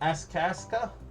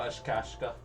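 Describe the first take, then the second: First: The name is said with plain s sounds. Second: The name is said with sh sounds.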